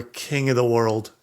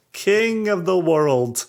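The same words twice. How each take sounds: First: Said in the usual way. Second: High, slow, grand proclamation; mock triumph. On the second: Teasing repeat of friend's triumph.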